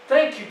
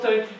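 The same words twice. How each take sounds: First: It is shouted loudly with joyful energy. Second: It is said quietly, without much energy. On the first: The thanks is given wholeheartedly. The speaker calls it right. "Shout to the Lord joyfully" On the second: The thanks is given half-heartedly. The speaker calls it wrong. "Not just with a, oh"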